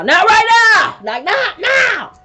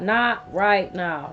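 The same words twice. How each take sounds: First: Much higher and louder, nearly shrieking; mock shout. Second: Said in the usual way. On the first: Herself retelling snapping at God, a loud high shout. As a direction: snap back at God in a full panic. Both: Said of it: "Then it's like".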